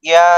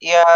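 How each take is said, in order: No difference in how they are said.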